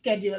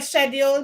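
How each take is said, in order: First: The word is said in an American way. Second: The word is said in a non-American way. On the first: The speaker calls it right. "they tend to follow the American pronunciation" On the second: The speaker calls it wrong. "if I go say schedule"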